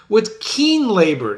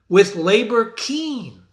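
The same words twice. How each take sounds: First: Slow, with "keen" leaned on before labor; "keen" pressed hard and louder; stress on keen. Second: Slow "With labor keen", each word weighed; "keen" held at the end, louder; stress on the flipped order. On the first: Teacher stressing the usual order "keen labor". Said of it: "Note the flip of the adjective". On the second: Teacher showing the poet's flipped "labor keen". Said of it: "Instead of keen labor". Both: Shown as a demonstration.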